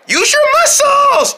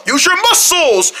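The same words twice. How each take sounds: First: Very high, slow, strained squeak; urgent little friend. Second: High strained rallying call; urging through effort. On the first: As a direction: squeal encouragement while heaving. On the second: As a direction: urge the team on while heaving. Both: Pretend. Urging each other while carrying.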